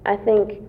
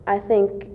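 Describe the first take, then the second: No difference in how they are said.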